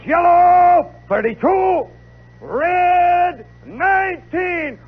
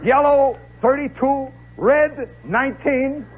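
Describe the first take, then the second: First: High, loud, drawn-out field call; drum major's command. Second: Said in the usual way. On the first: Acted. Drum major sends the band marching, high drawn-out shout. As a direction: sing out the signals across the field. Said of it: "He goes".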